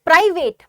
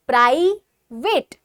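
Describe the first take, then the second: First: Said in the usual way. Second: private said loud and slow as प्राइ, pause, वेट; broken into syllables. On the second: Shown as a demonstration. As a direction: separate the two sounds of private, प्राइ... वेट, stretching each. (Private को ज़ोर से, तोड़कर: प्राइ... वेट) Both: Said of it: "तो पहले प्राइ में आ रहा है फिर वेट में".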